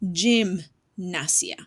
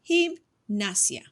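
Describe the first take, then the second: First: It begins with an English J sound. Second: It begins with a breathy H-like sound. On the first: The speaker calls it wrong. "most English speakers would be pronouncing that as gymnasia, which is not correct" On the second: The speaker calls it right. "I decided to change that J to an H"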